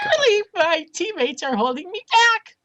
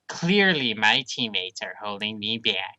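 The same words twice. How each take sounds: First: It is said in a squeaky adolescent voice. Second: It is said in a normal voice.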